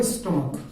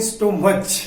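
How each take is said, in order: First: स्टमक said as stuh-muk, ending in a hard k; teacher models स्टमक as stuh-muk; correct pronunciation. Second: स्टोमच said as sto-much, ending in ch; imitating the village sto-much for स्टोमच; village mispronunciation. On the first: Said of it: "आपका word आता है स्टमक". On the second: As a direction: say स्टोमच the common wrong way, with ch. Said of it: "गांव में हम सभी इसको जो आज तक बोलते". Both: Shown as a demonstration.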